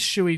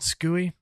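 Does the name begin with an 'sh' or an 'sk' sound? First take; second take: sh; sk. First: The name begins with an 'sh' sound. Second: The name begins with an 'sk' sound. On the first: The speaker calls it right. "it is Shui, not Skui" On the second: The speaker calls it wrong. "not Skui"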